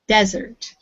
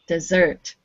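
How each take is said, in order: First: The stress is on the first syllable. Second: The stress is on the second syllable. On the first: It is the noun, meaning a dry area. "as a noun" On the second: It is the verb, meaning to abandon. "I asked you to do a verb"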